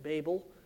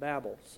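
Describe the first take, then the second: First: Babel is said the common English way. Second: Babel is said the Hebrew way. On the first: The speaker calls it wrong. "have pronounced it Babel" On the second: The speaker calls it right. "the Hebrew reading actually is Babel"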